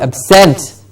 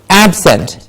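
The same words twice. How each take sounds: First: The stress is on the second syllable. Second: The stress is on the first syllable. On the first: It is used as a verb. "there's a schwa in the beginning to say ab" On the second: It is used as an adjective. "or an adjective, then it is absent"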